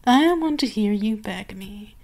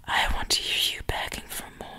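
First: Said in the usual way. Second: Unvoiced whisper, close and teasing. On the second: Mistress whispering to her pet what she wants to hear. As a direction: lean in and whisper the demand.

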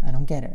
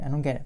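First: Exasperated emphasis; louder "I don't get it". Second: Said in the usual way. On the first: Shown as a demonstration. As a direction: insist hard on "I don't get it".

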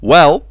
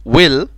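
First: Well with an open e, as in wel. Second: Will with a short i, as in wil. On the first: Teacher shows well apart from will. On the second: Teacher shows will apart from well. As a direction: keep the vowel of will short and close. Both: Shown as a demonstration. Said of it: "نفرق ما بين كلمة well و will".

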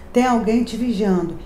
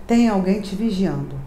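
Both takes have the same delivery.

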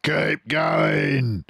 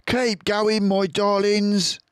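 First: Higher, gruff farmer call; a greedy farmer egging on his men; Boggis shouting. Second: High fox voice, urging and breathless; Mister Fox panting. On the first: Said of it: "the fat Boggis shouted to Bunce and Bean". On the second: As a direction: push the family on, high and slower on darlings. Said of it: "panted Mister Fox". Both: A narrator's reading.

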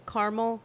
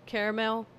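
First: Caramel said as "CAR-mul"; two-syllable caramel. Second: Caramel said as "CARE-mel"; "CARE-mel" pronunciation. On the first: Vlogger unsure of the word, caramel as "CAR-mul". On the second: Vlogger trying the other way, caramel as "CARE-mel". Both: Shown as a demonstration. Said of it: "I don't know".

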